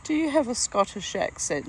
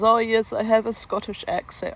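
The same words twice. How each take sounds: First: Said in the usual way. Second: Imitated Scottish accent, pitched higher; put-on Scottish accent. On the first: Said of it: "I said". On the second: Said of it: "if he was bunging it on".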